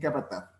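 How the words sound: The final z is pronounced like th. This is the pronunciation used in Spain. "esa es la manera española"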